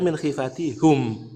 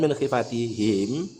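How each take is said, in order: First: The final pronoun is said with a u vowel. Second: The final pronoun is said with an i vowel. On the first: "boleh dibaca min khifati hum" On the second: "seringnya kita dengar dibaca him"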